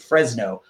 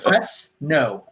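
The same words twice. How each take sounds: First: Said as one word with a Z sound. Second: Said with an S sound, almost two words. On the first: The speaker calls it right. "With that like Z sound" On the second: The speaker calls it wrong. "almost like he was making two words there"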